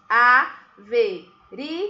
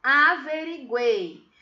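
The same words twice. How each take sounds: First: "Averiguei" in four slow beats, a, ve, ri, guei, with pauses; loud, slow syllable-by-syllable "Averiguei"; split into syllables. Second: "Averiguei" said slowly as one connected word; slow, careful "Averiguei", syllables joined; drawn-out word. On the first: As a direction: break "Averiguei" apart: a... ve... ri... guei. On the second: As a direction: stretch "Averiguei" without breaking it up. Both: Shown as a demonstration. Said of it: "Separei as sílabas".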